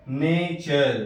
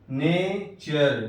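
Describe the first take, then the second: First: Said in the usual way. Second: نیچر stretched very slowly, "ch" sound clearly pronounced; slow careful demo. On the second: Shown as a demonstration. Teacher slowly models the word's "ch" sound, very drawn out. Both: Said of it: "T کے بعد یو R E ہے تو چا سے".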